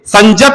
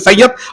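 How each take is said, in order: First: The middle consonant is a j sound. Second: The middle consonant is a y sound. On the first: This is the Nagpuri dialect form. "Nagpuri में य के जगह में ज का प्रयोग होता है" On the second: This is the standard Hindi form. "Hindi में संयत"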